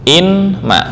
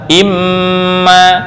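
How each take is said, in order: First: The n is sounded separately before the m. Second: The n merges into a doubled m sound.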